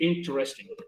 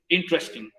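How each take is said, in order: First: The word is said fully with four syllables. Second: The word is squeezed into three syllables. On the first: "en vez de decir interesting" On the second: "Por eso suena a veces interesting"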